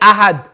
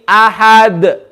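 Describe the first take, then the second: First: The final d is flat, with no echo. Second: The final d bounces with an echoing sound. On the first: The speaker calls it wrong. "Don't say Ahad. If you just say Ahad, you're not doing qalqala" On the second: The speaker calls it right. "It needs to be Ahad. ... that echoing sound"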